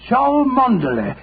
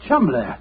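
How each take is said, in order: First: The name is said letter by letter, in full. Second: The name is said short, as two syllables. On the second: "the name Chumley is in no way pronounced the way it is spelled"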